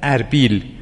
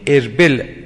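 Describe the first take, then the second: First: The second syllable has a long 'ee' vowel. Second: The second syllable has a short 'e' vowel. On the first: This is the everyday modern pronunciation. "الان میگن اربیل" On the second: This is the original pronunciation. "این اصلش اربله"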